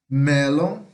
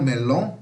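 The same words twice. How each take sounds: First: The stress is on the first syllable. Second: The stress is on the second syllable. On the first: The speaker calls it right. "A sílaba mais forte é o E" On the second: The speaker calls it wrong. "e não melon, não"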